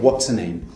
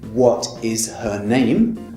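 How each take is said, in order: First: It is fast, with 'her' reduced to a schwa. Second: Each word is said in full, including 'her'. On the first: "That's the fast pronunciation" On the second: "just in a normal question"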